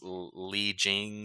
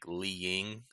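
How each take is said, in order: First: The second name starts with a J sound. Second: The second name starts with a Y sound. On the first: The speaker calls it wrong. "Like this Li Jing" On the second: The speaker calls it right. "it's probably like Yi, like Li Ying"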